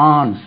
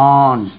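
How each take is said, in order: The two takes are said the same way.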